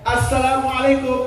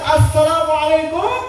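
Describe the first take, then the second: First: The greeting is said somewhat loudly. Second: The greeting is said very loudly. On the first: "agak keras" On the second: "Yang ketiga lebih keras"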